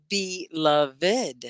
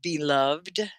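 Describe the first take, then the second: First: BELOVED in three slow beats, "be-luv-ed"; three syllables. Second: BELOVED said "be-luvd", ending on -vd; silent final e. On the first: Teacher asks which way students say it, three syllables. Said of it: "You usually say the three syllables". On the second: Teacher repeats the word for students, last syllable merged. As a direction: say BELOVED with no separate -ed. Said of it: "Is it one syllable or two?". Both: Shown as a demonstration.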